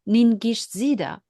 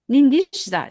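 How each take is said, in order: First: The name is said in full, with every syllable. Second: The name is shortened, missing a middle syllable. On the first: This is the name as it is usually written. "we looked up on internet" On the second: This is how someone else pronounced the name. "that was his way of pronouncing"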